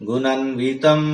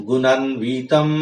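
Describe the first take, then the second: The two takes are said the same way.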